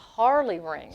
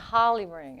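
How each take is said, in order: First: The R in Harley is clearly pronounced. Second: The R in Harley is dropped, sounding like holly. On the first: "It's a Harley ring" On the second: "this is how she says it"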